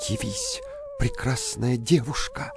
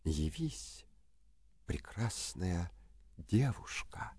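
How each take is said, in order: First: Called out spell. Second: Soft slow summoning whisper; whispered spell. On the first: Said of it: "взял стеклянный башмачок и шепнул". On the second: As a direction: breathe the magic words softly. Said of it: "возьми этот башмачок и шепни". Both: A narrator's reading.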